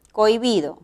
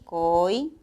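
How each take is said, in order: First: Said in the usual way. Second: "cohibido" broken up, "cohi" held, then a pause; syllable by syllable. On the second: Shown as a demonstration. Teacher showing how the word divides, syllables spaced apart. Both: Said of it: "Sería silábicamente así".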